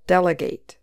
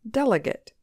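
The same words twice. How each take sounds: First: The last syllable is lightly stressed. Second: The last syllable is weak. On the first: It is a verb: to give a task to someone else. "But the verb form also has a little stress on the last syllable" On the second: It is a noun: a person chosen to attend a convention. "So the noun form just has stress on the first syllable"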